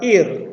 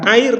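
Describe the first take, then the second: First: The syllable starts with a plain 'i' vowel. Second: The syllable starts with an 'ai' vowel. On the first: The speaker calls it right. "tapi ir" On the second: The speaker calls it wrong. "bukan air"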